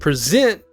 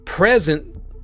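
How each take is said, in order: First: The stress is on the second syllable. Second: The stress is on the first syllable. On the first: "zent is stressed" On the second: "pre is stressed"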